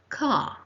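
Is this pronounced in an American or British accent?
British. The final r sound is silent. "In British English, it is"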